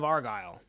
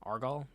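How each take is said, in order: First: Argyle ending like "guile"; second syllable of Argyle rhyming with mile; attempted pronunciation. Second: Argyle said as AR-gawl, questioning; unsure, rising AR-gawl for Argyle; alternative pronunciation. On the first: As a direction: say Argyle as AR-gyle. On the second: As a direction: try Argyle with an "awl" ending. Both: Shown as a demonstration. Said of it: "I can never pronounce that right".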